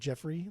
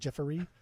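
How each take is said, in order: First: The name is said with two syllables. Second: The name is said with three syllables. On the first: "instead of Jeffrey" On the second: "like Jeffery. Like put the E R Y"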